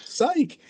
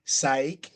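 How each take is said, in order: First: Retold incredulous echo. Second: Said in the usual way. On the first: Wrestler echoing the other man's excuse, high incredulous PSYCH. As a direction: PSYCH pitched very high, falling at the end. Echoes the word in disbelief.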